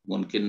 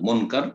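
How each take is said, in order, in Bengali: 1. দ্বিতীয় সিলেবলে 'i' স্বরধ্বনি আছে। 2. দ্বিতীয় সিলেবলে 'a' স্বরধ্বনি আছে। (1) "ভুল উচ্চারণ। মুনকির নাকির না" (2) "শুদ্ধ নাম হচ্ছে মুনকার"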